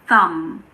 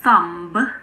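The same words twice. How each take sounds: First: The word ends with an m sound. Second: The word ends with an audible b sound. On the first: The speaker calls it right. "all of these words end in the sound mm" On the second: The speaker calls it wrong. "So this is not a thumb"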